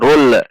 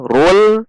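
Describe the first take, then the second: First: The final l bounces with a release. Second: The final l is pressed and held firmly. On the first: The speaker calls it wrong. "hati-hati juga memantul, bukan dibaca rul" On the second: The speaker calls it right. "tekan di titik makhraj lam"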